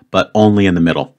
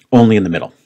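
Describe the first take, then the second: First: Only pressed with a falling tune; stress on only. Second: Only stressed, falling firmly; stress on only again. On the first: To viewers, clarifying the Y rule, stressing only. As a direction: lean on the word only. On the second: To viewers, repeating the rule with stress on only. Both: Shown as a demonstration.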